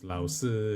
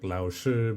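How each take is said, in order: First: The second syllable starts with a plain 's' sound. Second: The second syllable starts with a 'sh' sound.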